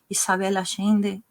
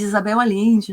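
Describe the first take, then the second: First: The name has a Uruguayan Spanish pronunciation. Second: The name has a Portuguese-style pronunciation. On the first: "eu que tenho uma pronúncia mais da, do Uruguai, então eu faço uma pronúncia diferente" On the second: "vamos fazer português isso"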